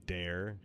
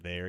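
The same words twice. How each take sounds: First: "Dare" with a hard D in place of TH; "Dare", the opening TH turned into a plain D; country "dare" for "there". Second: Said in the usual way. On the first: Shown as a demonstration. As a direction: say "Dare" with a D at the front, country style. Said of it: "you say, "Dare". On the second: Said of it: "instead of say, like, "there".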